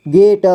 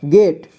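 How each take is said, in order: First: गेट split as गे, ट; syllable by syllable. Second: Said in the usual way. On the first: Shown as a demonstration. Teacher showing learners गेट, sounded out in parts. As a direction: sound out गेट with a vowel after ट. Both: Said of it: "इसे पढ़ेंगे".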